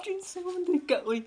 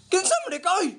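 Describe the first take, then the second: First: Hammed-up sob through the question; mock crying. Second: Said in the usual way. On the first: Wife asks the bottle who it is, mock crying. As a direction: whimper the words like a wronged wife.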